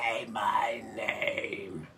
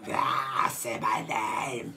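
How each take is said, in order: First: Slow raspy demonic whisper; devil voice. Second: Slow raspy smoker's croak; smoker's rasp. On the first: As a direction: breathe it out like a demon. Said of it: "She sounds like the devil". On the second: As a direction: drag it out like a heavy smoker. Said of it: "she's got that smoker's rasp". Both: Retold or imitated.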